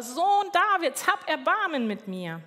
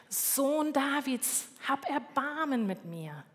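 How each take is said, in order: First: Louder retold call. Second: Drawn-out, higher call without extra volume; slow pleading call, held back in volume; retold calling out. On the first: Blind beggar insists over the people hushing him, louder imitated call. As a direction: imitate the beggar calling out harder. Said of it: "er ruft nur lauter". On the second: Blind beggar calls out to Jesus on the roadside, restrained drawn-out call. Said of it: "Und der ruft".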